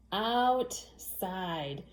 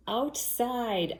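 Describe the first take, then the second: First: "Outside" stretched as OUT, short gap, SIDE; syllable by syllable. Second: Said in the usual way. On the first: Shown as a demonstration. Teacher helping children count syllables, "Outside" split into two drawn-out beats. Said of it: "count the syllables with me". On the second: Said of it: "or say the word outside".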